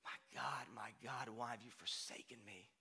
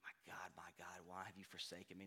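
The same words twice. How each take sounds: First: Softer, lower, hushed plea; quiet anguished quote. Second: Much softer and lower, almost breaking; near-whispered anguish. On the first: Jesus on the cross to the Father, hushed anguish. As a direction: murmur it as a forsaken cry. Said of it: "on the cross". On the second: Jesus on the cross to the Father, very hushed. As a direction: barely voice the forsaken cry. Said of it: "Jesus is quoting scripture there". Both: Retold or imitated.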